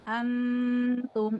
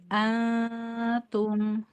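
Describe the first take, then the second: First: The n sound is clearly pronounced before the t. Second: The n is hidden in a faint nasal hum. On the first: The speaker calls it wrong. "ada dengung tapi en-nya ada juga. Antum, itu salah" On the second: The speaker calls it right. "ikhfa itu samar. Jadi dengung samar"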